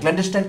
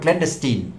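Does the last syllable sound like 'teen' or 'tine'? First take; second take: tine; teen. First: The last syllable sounds like 'tine'. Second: The last syllable sounds like 'teen'. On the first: The speaker calls it wrong. "ক্ল্যান্ডেস্টাইন কোনো শব্দ নেই ডিকশনারিতে" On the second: The speaker calls it right. "শব্দটি হলো ক্ল্যান্ডেস্টিন"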